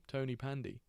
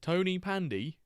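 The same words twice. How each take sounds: First: Said in the usual way. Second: "Tony Pandy?" tried out high and loud as a question; a hesitant first stab at "Tony Pandy", rising; testing how "Tony Pandy" sounds; unsure Welsh pronunciation. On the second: Shown as a demonstration. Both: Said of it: "Yeah, I won't do that again".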